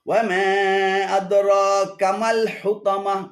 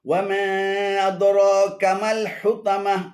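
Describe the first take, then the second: No difference in how they are said.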